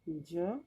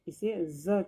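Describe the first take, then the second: First: The consonant is said plain, without nukta. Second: The consonant is said with the Urdu nukta sound. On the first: "बिना नुक्ता के ही केवल" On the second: "Urdu में जब बोलते हैं तो"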